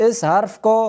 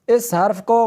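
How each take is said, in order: Both takes have the same delivery.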